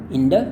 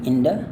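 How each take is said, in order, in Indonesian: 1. Konsonan tengahnya adalah bunyi D yang lembut. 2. Konsonan tengahnya adalah bunyi D yang lembut.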